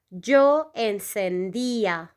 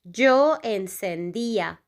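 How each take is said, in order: First: Slow model pronunciation. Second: Said in the usual way. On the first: Shown as a demonstration. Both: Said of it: "The conjugation will be".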